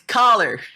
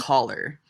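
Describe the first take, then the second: First: It is said with an American vowel. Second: It is said with a Canadian vowel. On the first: The speaker calls it right. "it's collar" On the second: The speaker calls it wrong. "not collar"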